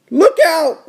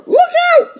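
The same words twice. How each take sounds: First: Higher-pitched warning call. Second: Extremely high little-sister squeal of warning. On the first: Little sister warning her brother at the curb, higher voice. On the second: Little sister warning her brother at the curb, extremely high squeal. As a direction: cry the warning in a tiny squeaky kid voice. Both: Acted. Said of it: "said D W".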